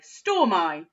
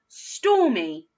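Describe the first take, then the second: First: The word ends with an 'eye' sound. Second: The word ends with an 'ee' sound. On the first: The speaker calls it wrong. "with the I sound at the end" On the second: The speaker calls it right. "with the E sound"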